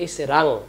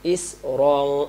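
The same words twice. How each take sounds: First: "ইসরাং" with an open a after র; common mispronunciation. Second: "ইসরং" slow, with rounded heavy র; correct recitation. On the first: Teacher shows common slip, "ইসরাং" with open a. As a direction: say "ইসরাং" plainly, unrounded and undrawn. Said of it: "আমরা বলি". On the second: Teacher models for pupils, "ইসরং" with rounded র. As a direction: draw out "ইসরং" with a full rounded র. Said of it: "ইসরাং বললে এটা রটা হয়". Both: Shown as a demonstration.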